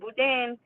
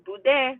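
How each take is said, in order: First: The final N sound is clearly pronounced. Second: The final N sound is left silent. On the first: The speaker calls it wrong. "not boudin" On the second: The speaker calls it right. "don't pronounce the N. It's boudin"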